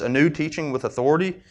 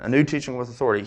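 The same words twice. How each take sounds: First: It is said as a question. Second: It is said as an exclamation. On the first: The speaker is asking whether it is new teaching. The speaker calls it wrong. "I said that as a question" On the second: The speaker is amazed at the new teaching. The speaker calls it right. "It's an exclamation"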